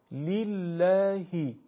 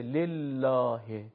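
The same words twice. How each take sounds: First: لله drawn out slowly with an Arabic i; Arabic lillah. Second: لله with the Persian e vowel; Persianized لله; Persian-style lillah. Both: Shown as a demonstration. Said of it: "نمیشه لله".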